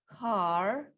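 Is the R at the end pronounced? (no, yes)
yes. The word ends with an R sound. "American version with the R"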